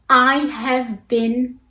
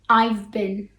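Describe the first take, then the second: First: The word 'have' is pronounced in full. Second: The word 'have' is reduced to a 'v' sound.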